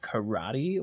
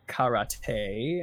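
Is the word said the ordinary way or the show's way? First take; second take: ordinary; show's way. First: The word has its ordinary everyday pronunciation. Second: The word has the show's special pronunciation.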